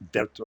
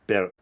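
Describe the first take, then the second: First: The word starts with a V sound. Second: The word starts with a B sound.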